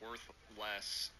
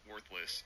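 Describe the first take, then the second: First: It is said as two separate words. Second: It is said as one combined word. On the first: The things have less worth than before. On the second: The things have no worth at all.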